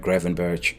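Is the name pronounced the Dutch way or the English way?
English. The name is pronounced the English way.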